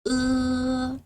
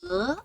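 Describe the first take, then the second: First: The syllable is said with the first tone. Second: The syllable is said with the second tone. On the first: "The first tone" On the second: "Second tone"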